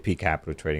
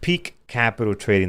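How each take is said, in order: First: The final k of peak is dropped. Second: The final k of peak is clearly heard. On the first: The speaker calls it wrong. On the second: The speaker calls it right.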